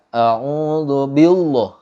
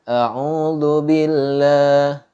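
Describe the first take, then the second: First: The l in billah is heavy and thick. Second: The l in billah is light and thin. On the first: The speaker calls it wrong. "Nggak boleh dibaca" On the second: The speaker calls it right. "dibaca tipis"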